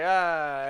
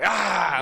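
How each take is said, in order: First: It is a slow, casual, mild scare sound. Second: It is a loud, aggressive scare sound.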